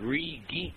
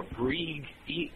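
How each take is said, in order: First: Bree Geek with the g starting Geek; split as Bree, Geek. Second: Bree Geek drawn out slowly as Breeg Eek; split as Breeg, Eek. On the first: Reading out a listener's odd username, Bree Geek split before the g. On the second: Offering another reading of a listener's username, Bree Geek slowly split as Breeg Eek. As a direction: move the g of Bree Geek back onto Bree, slowly. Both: Shown as a demonstration. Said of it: "depending on how you pronounce it".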